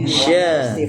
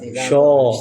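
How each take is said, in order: First: It is said light, with a clear open vowel. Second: It is said heavy, with a dark rounded vowel. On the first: The speaker calls it right. "Sya. Ya, istifal" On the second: The speaker calls it wrong. "Terus isti'la. Syo, enggak mungkin"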